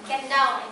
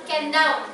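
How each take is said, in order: No difference in how they are said.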